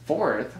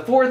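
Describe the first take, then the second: First: Fourth? asked back in disbelief, rising doubt; puzzled double take. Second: Said in the usual way. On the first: Real, not acted. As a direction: catch yourself mid-count and question the word fourth. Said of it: "I only covered three, right?".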